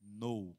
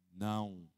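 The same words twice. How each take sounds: First: A fancy English "No." said low and soft; English "No." as a classy refusal; posh English no. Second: A deep, soft, drawn "Não."; a much lower, calm "Não." like a verdict. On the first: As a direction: say "No." in English, chic and detached. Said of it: "você pode ser mais chique, fala assim". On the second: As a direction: let "Não." sink low and settle. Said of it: "você viu que tem uma entonação". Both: Shown as a demonstration.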